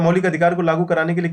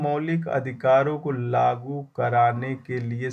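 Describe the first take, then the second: First: The phrase is read very quickly. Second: The phrase is read very slowly. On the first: The speaker calls it right. "अब speed में पढ़ता" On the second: The speaker calls it wrong. "मुझे बहुत धीरे धीरे पढ़ना पड़ता है"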